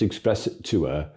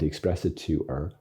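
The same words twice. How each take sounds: First: It is said in a put-on Yorkshire accent. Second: It is said in the speaker's usual accent.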